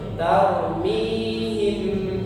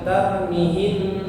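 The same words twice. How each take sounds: First: The vowel after the m is held long. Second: The vowel after the m is short. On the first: The speaker calls it right. "tapi tarmihim ya. Mihim, mi-nya dua harokat" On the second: The speaker calls it wrong. "jangan dibaca pendek, jangan tarmihim"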